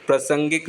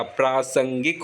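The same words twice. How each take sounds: First: प्रासंगिक misspoken as "pra-sangik"; wrong short a. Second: प्रासंगिक as "praa-sangik"; long opening aa. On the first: Teacher showing the error, प्रासंगिक with short "pra". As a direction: keep the first a of प्रासंगिक short. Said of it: "प्रासंगिक नहीं होता". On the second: Teacher correcting it, प्रासंगिक with long "praa". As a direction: lengthen the first vowel of प्रासंगिक. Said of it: "आ की मात्रा आती है आगे". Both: Shown as a demonstration.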